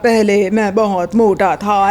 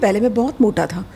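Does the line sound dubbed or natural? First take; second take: dubbed; natural. First: The line is delivered flatly, like a stiff dub. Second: The line is delivered naturally, like real conversation. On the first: The speaker does not understand the character. The speaker calls it wrong. "फिर वो उस तरह से नहीं लगेगा" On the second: The speaker understands the character and the question. The speaker calls it right. "फिर आप शायद ये कहेंगे"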